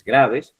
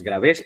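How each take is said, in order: First: "graves" stressed on GRA; correct first-syllable stress. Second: "graves" stressed on VES, rising; misstressed gra-VES; wrong final stress. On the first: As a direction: land on the start of "graves". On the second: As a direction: push "graves" onto its last syllable. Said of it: "no es graves". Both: Shown as a demonstration.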